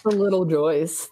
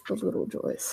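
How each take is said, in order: First: Said in the usual way. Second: Very soft, whispered repeat; hushed echo. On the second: Real, not acted. Teacher savouring little pleasures, whispered aside. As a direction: let it fall to a whisper. Same phrase repeated under breath.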